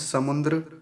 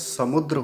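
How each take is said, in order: First: An extra nasal 'n' is heard before 'dr'. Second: No nasal sound is heard before 'dr'. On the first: The speaker calls it wrong. "जैसे कुछ लोग कहते हैं समुद्र" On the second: The speaker calls it right. "समुद्र होता है"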